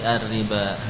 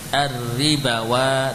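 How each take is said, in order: First: The word ends on a long a without w. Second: A w sound is read before the final vowel. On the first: The speaker calls it right. "tapi ar-riba" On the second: The speaker calls it wrong. "jangan dibaca ar-ribawa"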